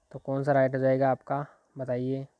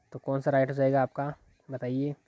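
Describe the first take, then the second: The two takes are said the same way.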